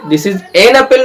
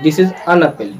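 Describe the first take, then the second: First: The article is pronounced with a full 'an' vowel. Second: The article is pronounced as a reduced 'un'. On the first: The speaker calls it wrong. "नहीं" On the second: The speaker calls it right. "Ninety percent अन बोला जाता है"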